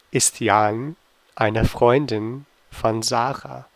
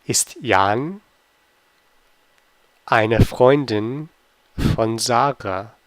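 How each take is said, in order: First: Said in the usual way. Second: Slow quiz read with pauses between parts; slow, chunked question. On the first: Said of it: "teacher repeats quiz question". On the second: Shown as a demonstration. Teacher quizzing German learners, slowly and in chunks. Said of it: "teacher reads quiz question twice".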